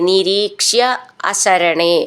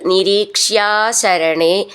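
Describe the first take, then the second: First: The two words are said as separate words. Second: The two words are merged into one word.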